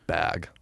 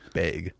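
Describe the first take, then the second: First: The vowel matches the vowel in 'dad'. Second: The vowel sounds close to the one in 'beg'. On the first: "it's that same inflection for bag and dagger" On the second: "It sounds like I'm saying bag"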